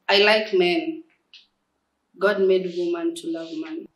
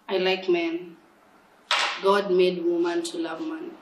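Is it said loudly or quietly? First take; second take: loudly; quietly. First: It is said loudly. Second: It is said quietly.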